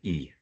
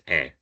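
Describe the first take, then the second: First: The vowel is a close 'ee' sound. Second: The vowel is an open 'eh' sound. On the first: The speaker calls it wrong. "it's not pronounced like E ever" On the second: The speaker calls it right. "it's always pronounced E"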